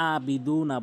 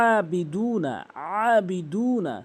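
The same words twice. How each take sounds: First: আবিদু না with a plain alif a; mispronounced as hamza. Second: আবিদু না opening on a throaty ayn; pressed ayn, long vowels in আবিদু না; correct ayn. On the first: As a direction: start আবিদু না on an ordinary open a, no throat. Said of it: "হামজার উচ্চারণ". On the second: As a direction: squeeze the first a of আবিদু না from mid-throat. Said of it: "আইনের উচ্চারণ করতে হবে". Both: Shown as a demonstration.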